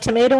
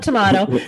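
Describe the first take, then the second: First: Tomato said as "tuh-MAY-toe"; American-style pronunciation. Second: Tomato said as "tuh-MAH-toe"; British-style pronunciation. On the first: Host jokes with guest about variants, tomato as "tuh-MAY-toe". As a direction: say tomato with a long "ay". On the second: Host jokes with guest about variants, tomato as "tuh-MAH-toe". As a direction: say tomato with a broad "ah". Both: Shown as a demonstration. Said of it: "everyone has their own interpret".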